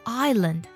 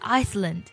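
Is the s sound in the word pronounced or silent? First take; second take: silent; pronounced. First: The s sound is not pronounced. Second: The s sound is pronounced. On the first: The speaker calls it right. "我们把它读作island" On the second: The speaker calls it wrong. "而不是Iceland"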